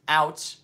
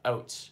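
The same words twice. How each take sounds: First: It is said in an American accent. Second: It is said in a Canadian accent. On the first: "Americans say out" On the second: "Canadians say uh, uh, out"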